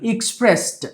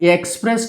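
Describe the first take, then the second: First: The first vowel sounds like 'i' in ill. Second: The first vowel sounds like 'e' in bed. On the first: The speaker calls it right. "ఈ పలకాలి" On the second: The speaker calls it wrong.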